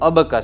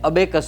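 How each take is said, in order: First: The second vowel sounds like 'uh'. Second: The second vowel sounds like 'ay'. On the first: The speaker calls it right. "પણ એનો ઉચ્ચાર થાય છે અબકસ" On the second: The speaker calls it wrong. "લોકો એને અબેકસ બોલતા હોય છે"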